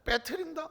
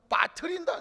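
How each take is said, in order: First: The first vowel is the fronted 'ae' sound. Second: The first vowel is the open 'a' sound. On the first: This is a regional dialect form. "이건 경기도 사투리 같아요" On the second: This is the standard form. "빠뜨린다가 표준말인 것 같아요"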